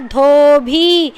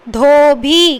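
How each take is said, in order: First: Dhobi stretched very slowly, with a breathy dh; slowly drawn out. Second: Said in the usual way. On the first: Shown as a demonstration. Teacher repeats the word slowly for pupils to copy. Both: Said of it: "क्या बना".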